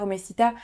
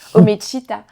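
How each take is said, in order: First: The middle consonant sounds like a plain s. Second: The middle consonant sounds like a ch. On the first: The speaker calls it wrong. "je le prononce bien, on le dit comme ça?" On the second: The speaker calls it right. "il faut me le dire, Omechita"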